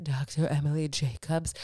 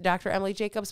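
First: Lower, put-on announcer-style name; grand name voice. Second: Said in the usual way. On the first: Shown as a demonstration. Doctor's name said in a lower, put-on grand voice. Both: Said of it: "I don't know why I have to say her name like that".

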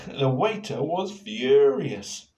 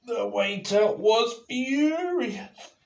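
First: Said in the usual way. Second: High, slow, loud emphasis on furious; dramatic. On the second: A narrator's reading. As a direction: lean into furious. Dramatic reading.

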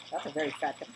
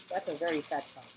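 The two takes are said the same way.

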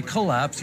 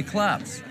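First: "collapse" said properly as co-LAPSE; two full syllables. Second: "collapse" squashed into one syllable, CLAPS; first vowel dropped. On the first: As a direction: give "collapse" its first vowel, kuh-LAPS. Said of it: "You don't say collapse". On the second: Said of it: "you say collapse". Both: Shown as a demonstration.

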